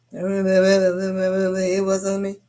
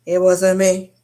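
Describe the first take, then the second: First: Milk the denial, slow and mocking; drawn-out denial. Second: Loud mock denial. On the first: Teen boy repeating to his cousin, a slow drawn-out denial. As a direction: stretch every word very slowly. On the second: Teen boy insisting to his cousin, a loud mock denial. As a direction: belt it out, louder.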